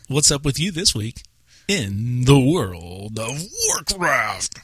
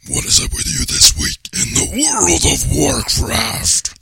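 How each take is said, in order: First: It is said in his normal voice. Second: It is said in a strained, gruff put-on voice.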